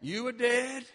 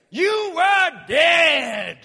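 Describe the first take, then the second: First: Said in the usual way. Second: Slow, drawn-out preacher's shout; shouted slowly. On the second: Acted. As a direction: bellow it slowly to the congregation. Preacher's shouted climax line.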